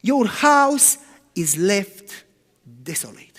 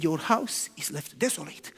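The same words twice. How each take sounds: First: Very slow, drawn-out judgment; solemn pronouncement. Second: Softer, lower, sorrowful; quiet and sad. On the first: Preacher voicing Jesus's verdict on the temple, slow and solemn. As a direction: let each word fall slowly and heavily. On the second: Preacher voicing Jesus leaving Jerusalem, quiet and sad. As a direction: say it gently with grief. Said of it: "Jesus was quiet and sad". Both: Retold or imitated.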